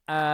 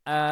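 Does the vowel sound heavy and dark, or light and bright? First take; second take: light; light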